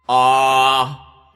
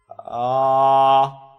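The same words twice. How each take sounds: First: The voice sounds thick, pressed and rigid. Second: The voice sounds thin, light and flexible. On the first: The speaker calls it wrong. "a thicker sound would be like if you take the fold and you make them really press together" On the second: The speaker calls it right. "And instead going"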